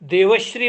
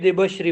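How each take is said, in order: First: The second consonant is a v sound. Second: The second consonant is a b sound. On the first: The speaker calls it right. "देवश्री म्हणायची" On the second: The speaker calls it wrong. "देबश्री म्हणतात"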